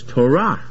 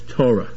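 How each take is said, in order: First: The stress is on the last syllable. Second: The stress is on the first syllable. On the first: "The stress is in the last"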